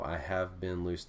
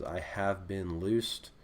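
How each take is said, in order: First: Said in the usual way. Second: Half speed, each word drawn out, rising at the end; slow demo reading. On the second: Shown as a demonstration. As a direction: lay the translation out slowly for students. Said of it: "basic translation is".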